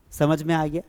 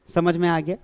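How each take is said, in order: Both takes have the same delivery.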